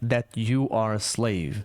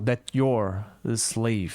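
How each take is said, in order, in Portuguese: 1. Cada palavra é dita separadamente e com clareza. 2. As palavras se emendam rapidamente, e o you are fica contraído. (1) "Mas ele falou separadinho" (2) "Pessoas que falam mais rápido vão acabar emendando"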